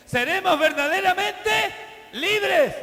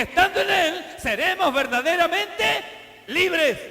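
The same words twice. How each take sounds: First: Verdaderamente drawn out slowly and loudly, libres falling; slow, emphatic repeat. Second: Loud, driving delivery of verdaderamente libres; preaching at full force. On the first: Pastor repeating the promise of freedom in a slow, weighty voice. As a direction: lean hard on each syllable of verdaderamente. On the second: Pastor proclaiming freedom in Christ in a loud, driving voice. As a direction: call out estando en Él seremos verdaderamente libres in one loud sweep. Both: Acted. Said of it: "repeats the promise slower".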